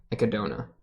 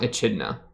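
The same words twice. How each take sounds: First: "Echidna" as eh-kuh-DOH-nuh, hard K; corrected pronunciation. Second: "Echidna" with a soft CH, eh-CHID-nuh; wrong pronunciation. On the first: Reactor fixing a character's name, "Echidna" said eh-kuh-DOH-nuh. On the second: Reactor correcting himself on a character's name, "Echidna" misread as eh-CHID-nuh. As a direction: say "Echidna" with ch as in chin. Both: Shown as a demonstration. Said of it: "not Echidna".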